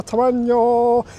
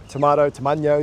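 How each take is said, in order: First: Tomato sung out high and slow, tuh-MAH-nyo; drawn-out silly tomato. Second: Said in the usual way. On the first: Shown as a demonstration. Listing kebab fillings to camera, tomato drawn out high and silly.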